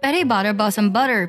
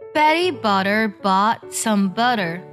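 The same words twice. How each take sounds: First: The line is read at a fast pace. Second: The line is read at a slow pace. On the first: "我以比较快的速度来朗读一下这个绕口令" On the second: "我们先来慢慢听一下这个绕口令"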